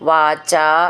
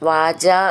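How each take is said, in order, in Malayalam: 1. അവസാനത്തെ സ്വരം നീട്ടിയാണ് ചൊല്ലുന്നത്. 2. അവസാനത്തെ സ്വരം ചുരുക്കിയാണ് ചൊല്ലുന്നത്. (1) "വാചാ ച എന്നാണ്" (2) "വാച എന്നായി പോവരുത്"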